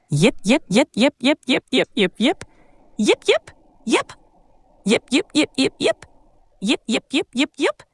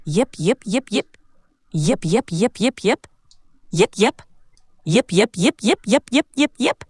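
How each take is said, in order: First: Short rising yips in bursts, higher as they go; cute little dog yipping. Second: Little rising puppy yips in quick clusters; super cute puppy yips. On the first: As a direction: yip like an energetic little puppy. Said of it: "twenty times as a cute little dog". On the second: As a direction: yip sweetly like a tiny pup. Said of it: "Let's imagine it's super cute this time". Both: Acted.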